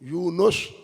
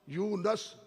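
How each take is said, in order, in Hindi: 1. नाम का दूसरा स्वर सावधानी से बोला गया है। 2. नाम का दूसरा स्वर बदला हुआ है।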